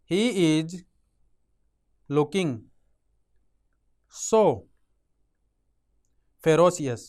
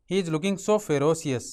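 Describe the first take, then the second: First: Each word set apart by long pauses, ferocious said louder; word by word dictation. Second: Very slow sentence with the stress on so; slow whole sentence. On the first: Teacher dictating a sentence to students, word by word. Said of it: "अब एक sentence बना". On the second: Teacher reading the built sentence to students, very slow. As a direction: read the full sentence very slowly in one go. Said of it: "तो कैसे बनाएंगे?". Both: Shown as a demonstration.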